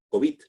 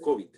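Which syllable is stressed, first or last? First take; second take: last; first. First: The stress is on the last syllable. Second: The stress is on the first syllable. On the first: It is used as a masculine noun. "la pronunciación termina siendo eh, aguda" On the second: It is used as a feminine noun. "la pronunciación termina siendo grave"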